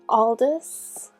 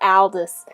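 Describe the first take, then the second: First: The name is said carefully with every sound clear. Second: The name is said quickly with its sounds reduced. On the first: This is the pronunciation the character's creator wants. "I'm pretty sure that's how she wants me to pronounce it" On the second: This is what slips out when talking too fast. "that last one is what comes out when I speak too fast"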